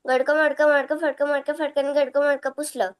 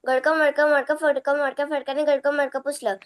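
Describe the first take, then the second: No difference in how they are said.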